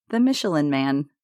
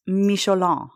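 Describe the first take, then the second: First: Said in the usual way. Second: "Michelin" said the French way, mee-shlan, nasal end; "Michelin" with French vowels and nasal ending; French pronunciation. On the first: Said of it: "pronounced Michelin". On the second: Shown as a demonstration.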